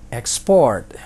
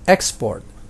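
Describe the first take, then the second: First: The stress is on the last syllable. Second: The stress is on the first syllable. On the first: It is a verb. "most two syllable verbs ... penekanannya adalah di suku kata terakhir" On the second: It is a noun. "most two-syllable nouns itu penekanannya di suku kata yang pertama"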